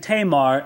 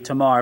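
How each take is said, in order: First: The a vowels sound like 'ay'. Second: The a vowels sound like 'ah'. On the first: The speaker calls it wrong. "I've been saying Tamar, and I probably will. It's undoubtedly an incorrect pronunciation" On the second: The speaker calls it right. "A's are always pronounced, never A in most other languages, but ah. And so undoubtedly it would be Tamar"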